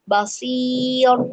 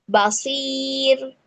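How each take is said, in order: First: Basir with a thick, dark r, drawn out; wrong thick ro. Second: Basir with the r said thick and heavy; wrong thick ro. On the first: Teacher repeats the mistaken reading for students. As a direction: slowly say basir with the ro too heavy. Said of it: "tidak tepat gitu ya". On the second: Teacher demonstrates the common mistake in Basir. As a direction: darken the ro in Basir on purpose. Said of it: "ro-nya harusnya dibaca tipis, ini malah dibaca tebal". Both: Shown as a demonstration.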